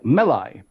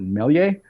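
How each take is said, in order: First: The name ends with a 'lie' sound. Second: The name ends with a 'lee-er' sound. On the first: The speaker calls it right. "so like Melai" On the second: The speaker calls it wrong. "some people pronounce it Melier"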